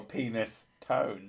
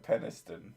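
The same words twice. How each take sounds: First: "penis tone" with long ee and full "tone"; joke mispronunciation. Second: "Peniston" with a short e, as in pen; correct Peniston. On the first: Playing on a town's name, slow "penis tone" with long ee. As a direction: slowly split it as "penis" plus "tone". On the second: Correcting a friend on the town's name, "Peniston" with short e. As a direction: say "Peniston" starting like "pen", ending unstressed. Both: Shown as a demonstration. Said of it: "isn't it like Peniston?".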